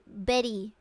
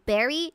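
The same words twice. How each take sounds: First: It is said with a Japanese katakana accent. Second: It is said with a plain English accent.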